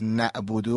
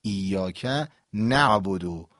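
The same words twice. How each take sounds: First: نعبدو said wrongly, without the ayn; ayn dropped. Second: ایاک نعبدو with a firm throaty ayn in نعبدو; ayn pronounced. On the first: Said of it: "اگر بگیم غلطه". (نعبدو بدون تلفظ عین) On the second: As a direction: set off نعبدو and sound its ayn. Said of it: "پس نعبدو اگر بگیم غلطه". (ایاک نعبدو با تلفظ عین) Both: Shown as a demonstration.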